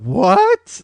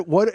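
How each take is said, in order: First: Rising, louder What as if to a moron; condescending what. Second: Said in the usual way. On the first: Retold or imitated. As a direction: say What like she's an idiot. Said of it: "Like she was a fucking moron". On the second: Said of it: "You could have just said".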